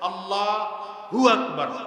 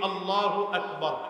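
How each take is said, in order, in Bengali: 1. "Allah" ও "hu" আলাদা অংশ হিসেবে বলা হয়। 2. "Allahu" এক জোড়া শব্দ হিসেবে বলা হয়। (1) "এটাও ভুল" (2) "আমরা নামাজের তাকবীর দিতে গিয়ে বলি"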